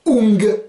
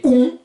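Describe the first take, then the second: First: UNG as nasal oo plus a hard g; G d'appui. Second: UN as a nasal oo, no g; nasalisation complète. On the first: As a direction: hit the final g of UNG. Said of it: "vous mettez un G". (« ung » dit « oung », g final prononcé) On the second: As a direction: push an oo through the nose for UN. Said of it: "dernier groupe de nasalisation complète". (« un » dit « ou » nasal, sans g) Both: Shown as a demonstration.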